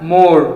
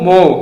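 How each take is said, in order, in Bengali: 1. শেষের r ধ্বনিটি উচ্চারিত হয়। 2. শেষের r ধ্বনিটি লোপ পায়। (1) "আমরা মোর বলি ... ভুল একদম" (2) "আর ই থাকলে আর সাইলেন্ট"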